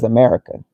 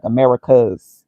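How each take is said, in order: First: America said without an S at the end; no final S. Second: Americas said with a clear final S; ending S on Americas. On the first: Speaker reading what the list shows, America with no final S. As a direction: end America on the open vowel, no S. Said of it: "It just says America". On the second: Speaker reading a continent list, showing Americas with a final S. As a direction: sound the plural S at the end of Americas. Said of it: "don't even have the S on it". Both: Shown as a demonstration.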